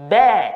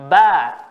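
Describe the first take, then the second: First: The vowel is a closer 'e' sound. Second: The vowel is an open 'a' sound. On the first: The speaker calls it wrong. "bukan be" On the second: The speaker calls it right. "ba harus dibuka"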